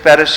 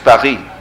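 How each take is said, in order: First: The name is said with an English pronunciation. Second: The name is said with a French pronunciation. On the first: "Paris is Paris in English" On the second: "it's not Paris in French, it's Paris"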